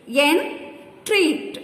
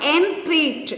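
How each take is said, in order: First: "Entreat" in two beats, En, treat; syllable by syllable. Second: Said in the usual way. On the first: Shown as a demonstration. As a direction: clear pause inside "Entreat" after En. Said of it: "Two syllables". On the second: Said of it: "Divide each word".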